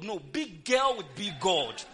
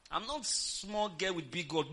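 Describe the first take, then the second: First: Put-on "big girl" pushed loud and slow, big punched; stress on big. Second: Said in the usual way. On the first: Shown as a demonstration. Preacher correcting herself to the congregation, punching "big". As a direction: lean hard on "big", louder and slower.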